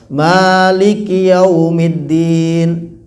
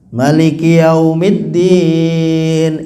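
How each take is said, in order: First: The first vowel of maliki is long. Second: The first vowel of maliki is short. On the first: "Pakai memnya dibaca mat asli" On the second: "ada yang malikinya pendek"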